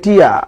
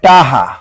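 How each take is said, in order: First: No consonant comes between the two vowels. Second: The middle consonant is a soft h sound. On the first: This is how people from another region say it. "আবার অনেকে কয় টিয়া" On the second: This is how people from one region say it. "অনেকে কয় টাহা"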